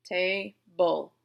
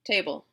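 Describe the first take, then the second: First: "Ta-ble" drawn out in two separate beats; split into syllables. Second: Said in the usual way. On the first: Shown as a demonstration. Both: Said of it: "I hear two syllables".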